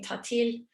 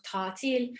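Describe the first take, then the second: First: The first vowel is cut short. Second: The first vowel is held long. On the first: This is the Cypriot Turkish form. "shortening the vowels" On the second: This is the standard Turkish form. "instead of"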